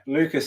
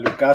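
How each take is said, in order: First: The name is pronounced the English way. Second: The name is pronounced the French way. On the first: "Lucas in English" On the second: "Lucas στα γαλλικά"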